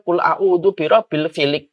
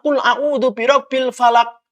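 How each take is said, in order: First: The last word is pronounced filik. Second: The last word is pronounced falak. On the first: The speaker calls it wrong. "imam salah" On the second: The speaker calls it right. "mengingatkannya langsung dengan suara"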